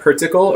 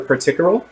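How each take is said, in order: First: The word stops right at the final L sound. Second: The word continues with more sound after the L. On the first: "in the first one, she she ends with uh, with the alveolar lateral approximate, l" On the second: "but in her second pronunciation, instead of just ending it here"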